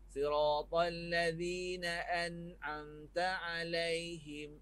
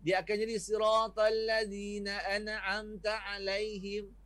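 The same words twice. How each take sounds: First: Siratal ladzina an'amta alaihim recited slowly with a clear ain in an'amta; an'amta said with the ain from the throat; correct Quranic recitation. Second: Reciting siratal ladzina an'amta alaihim with the ain of an'amta blurred; wrong Quranic recitation. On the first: Ustaz showing students the right reading, slow and careful. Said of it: "kena baca". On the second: Ustaz showing students the wrong reading. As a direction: demo of the mistaken way to say an'amta alaihim. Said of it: "Sedangkan kena baca". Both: Shown as a demonstration.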